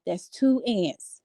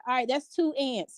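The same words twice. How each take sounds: First: Slow, drawn out, each word weighted; slow emphasis. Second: Said in the usual way. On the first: Shown as a demonstration. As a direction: spell it out slowly for effect.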